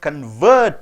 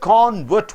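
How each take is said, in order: First: The stress is on the second syllable. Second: The stress is on the first syllable. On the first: To change someone's religion. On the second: A person who changed religion.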